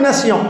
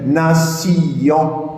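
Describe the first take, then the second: First: The word is said in two syllables. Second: The word is split into three syllables. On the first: "non pas en deux syllabes, comme elle l'est normalement" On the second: "C'est un effet solennel. ... C'est plus musical que nation"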